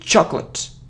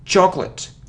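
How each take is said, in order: First: The c and l sounds run together. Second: The c and l sounds run together.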